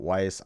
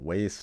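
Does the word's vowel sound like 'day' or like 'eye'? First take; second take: eye; day. First: The vowel sounds like the one in 'eye'. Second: The vowel sounds like the one in 'day'. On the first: The speaker calls it wrong. "not Weiss. I'm pronouncing it wrong in the video" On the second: The speaker calls it right. "yes, it's pronounced Waste"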